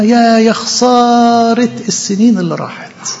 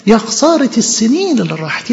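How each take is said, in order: First: Slow, mournful wail over خسارة; grieving soul mourning lost years; drawn-out lament. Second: Said in the usual way. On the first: Acted. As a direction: stretch out يا خسارة like a sigh of regret. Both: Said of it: "تقول لك: ببكي".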